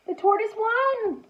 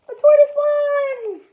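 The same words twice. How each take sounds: First: Said in the usual way. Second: Excited repeat. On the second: Shown as a demonstration. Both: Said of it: "repeats the line".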